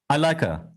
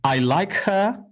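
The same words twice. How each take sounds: First: The word 'her' is reduced and linked. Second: Every word is said fully and clearly. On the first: "in real speech, you will very often hear something different" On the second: "Either I can say"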